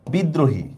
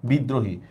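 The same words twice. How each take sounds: First: Said in the usual way. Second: বিদ্রোহী said with a doubled দ, bi-ddro-hi. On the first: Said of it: "দেখেন কিভাবে আমরা করব বিদ্রোহী". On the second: Shown as a demonstration. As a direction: lean on the দ so it sounds twice in বিদ্রোহী. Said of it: "এখানে দটা আমরা দুইবার উচ্চারণ করতেছি".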